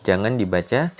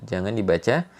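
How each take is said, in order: The two takes are said the same way.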